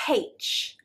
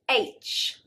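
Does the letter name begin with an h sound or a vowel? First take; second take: h sound; vowel. First: The letter name begins with an h sound. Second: The letter name begins with a vowel sound. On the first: The speaker calls it wrong. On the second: The speaker calls it right.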